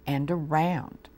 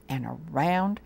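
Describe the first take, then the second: No difference in how they are said.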